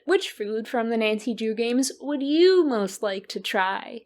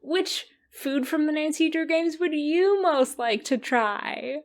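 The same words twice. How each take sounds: First: It is said in an accusing, aggressive tone. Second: It is said in a softer, gentle tone.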